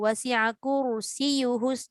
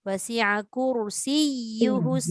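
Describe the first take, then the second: First: It is read fast, the doubled ya rushed. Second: It is read with the doubled ya pressed. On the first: The speaker calls it wrong. "jangan kita baca laju" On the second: The speaker calls it right. "Kena ada nampak tekanan dia"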